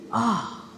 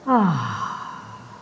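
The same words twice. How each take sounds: First: It sounds surprised and higher. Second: It sounds sad and tired.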